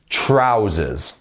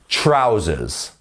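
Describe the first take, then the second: First: The stress is on the first syllable. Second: The stress is on the first syllable.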